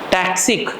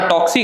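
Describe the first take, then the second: First: The first vowel sounds like 'a' in taxi. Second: The first vowel sounds like 'o' in top. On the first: The speaker calls it right. "टैक्सी होती है टैक्सी, हाँ वैसा टैक्सिक।" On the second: The speaker calls it wrong. "बेटा टॉक्सिक है"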